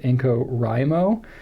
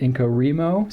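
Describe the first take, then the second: First: The middle syllable sounds like the word 'write'. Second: The middle syllable does not sound like 'write'. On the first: "it's the word right. It should be Inco-Rimo" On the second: "a bunch of other people pronounce it Inco-Rimo"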